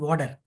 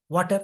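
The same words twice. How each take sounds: First: It is said with an American accent. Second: It is said with a British accent. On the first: "U K people and U S people pronounce it differently" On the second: "U K people and U S people pronounce it differently"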